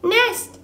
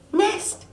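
First: High laughing chirp, repeated. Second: High laughing chirp. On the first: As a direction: chirp it again through a laugh. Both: Acted. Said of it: "laughed Bright Bill".

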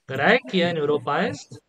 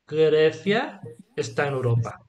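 First: "Grecia" as GRAH-eh-kee-a, with a hard k; "Grecia" in restored Latin, hard k and every vowel sounded; classical Latin pronunciation. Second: "Grecia" as GREH-thya, with a th sound; Spanish pronunciation. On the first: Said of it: "in restored classical pronunciation". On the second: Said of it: "then we'll tell you in Spanish". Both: Shown as a demonstration.

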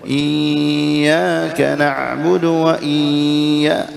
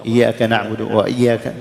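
First: «إياك» with the doubled ya held far too long; slow chant, stretch the ya of «إياك» excessively; overdone shadda. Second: «إياك» said lightly with a single, undoubled ya; shadda skipped. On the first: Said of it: "يعني نزيدها شوي". («إياك» بمبالغة في تطويل الشدة) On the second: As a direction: rush past the doubled ya in «إياك», no shadda. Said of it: "نمر مرورا هكذا من غير أن نأتي". («إياك» بياء مخففة دون شدة) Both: Shown as a demonstration.

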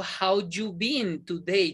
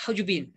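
First: "How you been today?" slow, words apart. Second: "How you been?" said in one quick go; linked together. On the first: Teacher demonstrating what not to say, slow and unlinked. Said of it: "Yo no digo". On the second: Teacher showing learners linkers, all in one go. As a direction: blend HOW-YOU-BEEN into a single unit. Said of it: "Digo toda de una". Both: Shown as a demonstration.

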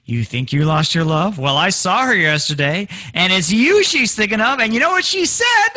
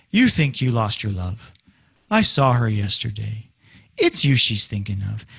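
First: Climbing higher and louder with each phrase; suspense-building tease. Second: Low, level line that never climbs; wrong low melody. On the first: Acted. Jerk friend making you sweat, teasing rise in pitch and volume. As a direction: draw out the suspense, loving it. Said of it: "he loves the fact that he's making you sweat". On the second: Shown as a demonstration. Teacher showing a melody that makes no sense, low and unrising. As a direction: keep every phrase low, no build in suspense. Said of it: "for the melody to go".

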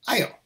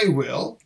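First: "あよ" said quickly as one syllable "I'll"; fast contracted form. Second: Said in the usual way. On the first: Shown as a demonstration. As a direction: squeeze "I will" into a quick "あよ", meaning "I'll". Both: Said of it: "白球だと".

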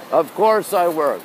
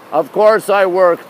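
First: Said in the usual way. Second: Slow and louder, leaning on course; emphatic. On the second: Real, not acted. Telling viewers he works, slow and louder. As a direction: insists on course, drawn out and louder.

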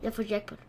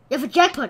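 First: Said in the usual way. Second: Louder, rising cheer; excited shout. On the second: Real, not acted. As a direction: shout the win out. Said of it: "repeats louder".

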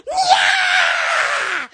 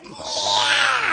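First: Long high screech, imitating a screaming toilet; mimicked high toilet scream; imitated scream. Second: Held-back, airy scream, imitating a toilet; muted mimicked toilet screech; quiet imitated scream. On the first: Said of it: "it starts screaming". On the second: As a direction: scream it under your breath. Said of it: "it's like a quiet".

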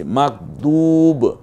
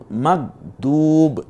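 First: মাকদুব very slow, du held; lengthened du. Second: মাকদুব slow and recited, du long; lengthened du. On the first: Teacher demonstrating the long du in মাকদুব. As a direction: stretch দু in মাকদুব. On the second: Teacher repeating মাকদুব with drawn-out du. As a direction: hold দু in মাকদুব one alif. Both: Shown as a demonstration. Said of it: "দু পড়েছি পেশের পরে ওয়াও সাকিন".

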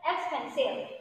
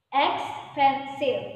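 First: Said in the usual way. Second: Expensive stretched out slowly, louder, every syllable clear; slow model word. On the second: Shown as a demonstration. Teacher drills expensive slowly so pupils can count syllables. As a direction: spell out Expensive slowly for the class. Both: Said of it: "Okay, look".

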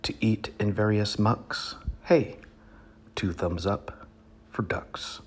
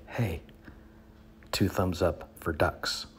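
First: A sudden high yelp of Hey, then a hushed two thumbs up; performed cheer. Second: Said in the usual way. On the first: Shown as a demonstration. Comic reader demonstrating to audience how he'd cheer the ducks, with a high hey. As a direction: show off the punchy Hey, then drop it to a hush. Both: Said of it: "And I do it like this".

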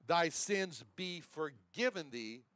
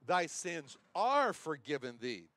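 First: Slow, lean on "be" in "Thy sins be forgiven thee"; stress on be. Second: Slow, "are" said as a mere statement; contrast on are. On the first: Preacher to congregation, slow with "be" stressed. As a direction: weigh "be" as a command. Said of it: "very important to see the word "be". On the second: Preacher shows the wrong reading, slow with "are" marked. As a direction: set "are" against "be". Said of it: "the Lord did not say". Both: Shown as a demonstration.

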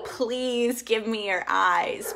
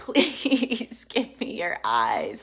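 First: Slow heartfelt request; slow earnest plea. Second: Slow breathy whisper with a laugh; whispered plea. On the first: Praying to God, a slow heartfelt plea. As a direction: draw the words out as a plea. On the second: Repeating her prayer to God, slow whisper. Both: Shown as a demonstration.

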